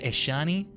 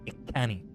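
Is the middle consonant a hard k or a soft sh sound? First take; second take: soft sh; hard k. First: The middle consonant is a soft sh sound. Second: The middle consonant is a hard k sound. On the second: "or hard?"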